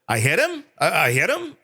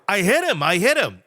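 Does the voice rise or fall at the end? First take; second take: rise; fall. First: It rises at the end like a question. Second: It falls at the end like a statement.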